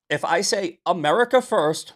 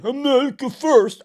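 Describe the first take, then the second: First: Said in the usual way. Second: Loud high mocking "America First". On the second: Shown as a demonstration. Streamer demonstrates his mocking groyper way of saying it. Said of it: "I'm talking about groypers".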